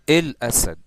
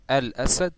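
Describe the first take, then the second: First: The article is said with an Egyptian 'il'. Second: The article is said with a standard 'al'. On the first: "And this is in the Egyptian accent" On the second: "instead of saying Al Asad"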